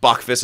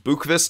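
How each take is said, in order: First: The name is said in an English-style way. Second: The name is said in a Swedish-style way. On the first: The speaker calls it wrong. "this guy's not Bachvist" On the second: The speaker calls it right. "I guess is how it's pronounced, the true Swedish way"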